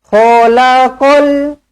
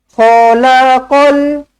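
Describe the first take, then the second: No difference in how they are said.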